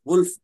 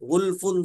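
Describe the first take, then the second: First: The word stops on the final consonant. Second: The word ends with the full 'un' ending. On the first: The reader stops here. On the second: The reading continues without stopping.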